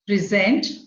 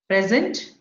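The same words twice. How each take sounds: First: The stress is on the second syllable. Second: The stress is on the first syllable. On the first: It is a verb. "If it is a verb, ... stress falls on the second syllable" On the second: It is a noun. "if it is a noun, it is on the in the beginning"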